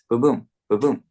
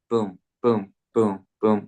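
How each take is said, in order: First: The booms come in pairs with pauses between. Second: The booms come evenly with no paired grouping. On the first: The speaker calls it right. "There's just like a slight pause in between" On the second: The speaker calls it wrong. "It's not"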